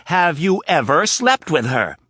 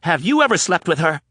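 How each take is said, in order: First: Slow, loud, stress on slept; insistent repeat. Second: High, loud pointed question; angry demand. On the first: Anna poking Rapp's chest, repeating it slower with stress on slept. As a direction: hammer the word slept. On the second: Anna demanding the truth from Rapp, loud. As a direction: stress on ever. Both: Acted.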